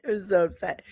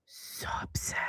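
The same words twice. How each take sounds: First: Said in the usual way. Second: Breathy whisper, barely there. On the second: Real, not acted. Streamer tells chat how upset she was, whispered. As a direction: breathe it out like a confession.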